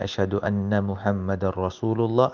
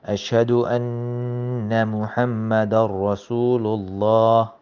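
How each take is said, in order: First: The n in anna is short, not held. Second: The n in anna is held longer. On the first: The speaker calls it wrong. "instead of saying" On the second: The speaker calls it right. "on the Noon Shadda, I pause on the Noon"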